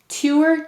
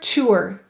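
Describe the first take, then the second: First: The syllable begins with a clear t sound. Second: The syllable begins with a ch sound.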